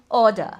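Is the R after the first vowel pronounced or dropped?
dropped. The R after the vowel is dropped.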